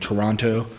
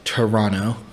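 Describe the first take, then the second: First: The second T is clearly pronounced. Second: The second T is dropped. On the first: The speaker calls it wrong. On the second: The speaker calls it right. "Can't, pronounce that second T"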